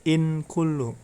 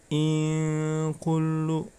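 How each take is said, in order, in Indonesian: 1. Bunyi n jelas dan pendek. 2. Bunyi n samar, berdengung, dan ditahan. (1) "Jangan in kullu ya. Salah karena itu bukan bacaan idhar" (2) "nun sukunnya dibaca samar ya. ... ditahan dulu"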